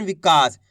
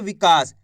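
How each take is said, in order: First: विकास with the का held long; stretched vowel. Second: विकास said low and clearly, syllable by syllable; clear demo. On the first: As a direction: draw out the आ in विकास. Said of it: "का को खींच के पढ़ रहे हैं ना अपन". (विकास में का को खींच कर बोलें) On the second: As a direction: pronounce विकास slowly so each syllable is heard. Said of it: "विकास कैसे उच्चारण हो रहा है". (विकास को साफ़ और धीमे उच्चारण में बोलें) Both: Shown as a demonstration.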